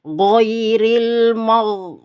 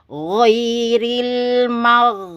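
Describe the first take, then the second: First: The gh sound is overly thick and heavy. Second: The gh sound is only moderately thick. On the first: The speaker calls it wrong. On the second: The speaker calls it right.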